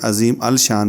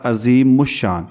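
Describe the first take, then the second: First: A separate 'al' with an 'l' is heard. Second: The 'l' merges into the 'sh' sound. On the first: The speaker calls it wrong. "नहीं पढ़ा जाएगा" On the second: The speaker calls it right. "इसको पढ़ा जाएगा"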